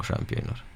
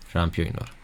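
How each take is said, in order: First: Whispered "șampionilor" with no voice; hushed teasing whisper of "șampionilor" to the viewers. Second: Quiet mutter. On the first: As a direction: breathe "șampionilor" as a secret aside to chat. Whispered aside to chat. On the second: Muttered aside to chat. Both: Pretend.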